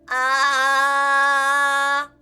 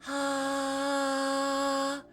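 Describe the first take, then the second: First: The voice sounds tight and pinched. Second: The voice sounds airy and breathy. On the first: "pinchy first" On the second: "breathy second"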